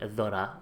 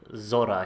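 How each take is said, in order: First: The name begins with a soft 'th' sound. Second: The name begins with a buzzing 'z' sound. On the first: It is the local Spanish pronunciation. "If I was from Zaragoza, I would say" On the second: It is the pronunciation for English speakers. "I'm going with Zora here for the for the English-speaking world"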